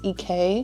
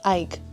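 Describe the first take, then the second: First: The vowel sounds like 'ee', as in 'eek'. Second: The vowel rhymes with 'Mike'. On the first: The speaker calls it wrong. "I just think it's E K" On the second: The speaker calls it right. "It's Ike. Like Mike and Ike"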